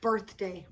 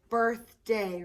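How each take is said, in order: First: Said in the usual way. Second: "Birthday" in two separate beats; broken into syllables. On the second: Shown as a demonstration. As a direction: split "Birthday" apart: birth, then day. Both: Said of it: "That's two syllables".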